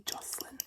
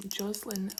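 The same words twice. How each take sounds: First: "Jocelyn" with a soft s, JOSS-lin; alternative pronunciation. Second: "Jocelyn" with a buzzed z, JOZ-lin; Australian pronunciation. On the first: Host comparing two ways to say a name, Jocelyn as JOSS-lin. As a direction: keep the middle of "Jocelyn" an unvoiced s. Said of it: "I think Jocelyn sounds prettier". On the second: Host comparing two ways to say a name, Jocelyn as JOZ-lin. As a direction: voice the middle of "Jocelyn" as z. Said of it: "we normally pronounce it". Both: Shown as a demonstration.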